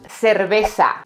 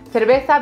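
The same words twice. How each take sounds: First: The c is pronounced as an s sound. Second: The c is pronounced as a th sound. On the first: "everything is pronounced with an S" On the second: "the way you say it in Madrid and North or Castilla-La Mancha"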